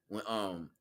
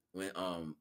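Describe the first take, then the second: No difference in how they are said.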